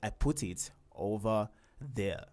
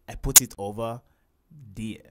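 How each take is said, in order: First: The last word starts with a 'th' sound. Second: The last word starts with a 'd' sound. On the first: The speaker calls it right. "It's I put it over there" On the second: The speaker calls it wrong. "So you can't say I put it over dear"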